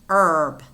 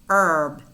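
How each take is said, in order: No difference in how they are said.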